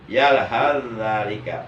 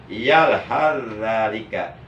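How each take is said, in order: The two takes are said the same way.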